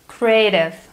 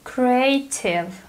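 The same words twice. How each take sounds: First: The middle consonant sounds like a soft D. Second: The middle consonant is a clear T. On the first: "the sound T in American English becomes D if it goes between two vowels" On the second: "British English sounds completely different"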